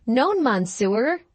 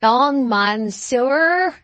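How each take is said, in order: First: Slow, higher, badly accented French. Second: Very slow, higher mock French. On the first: Sailor denies speaking English, incredibly bad French accent. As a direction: answer in clumsy, drawn-out bad French. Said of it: "with an incredible bad accent". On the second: Alan cries it back at the sailor, mocking. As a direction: mimic his bad French with exaggerated drawl. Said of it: "mocking him". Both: A narrator's reading.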